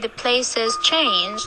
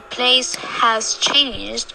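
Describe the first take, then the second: First: The word 'has' is reduced to a short 's' sound. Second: The word 'has' is said in full with its h. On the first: The speaker calls it right. "we say the place has changed" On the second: The speaker calls it wrong. "instead of saying the place has changed"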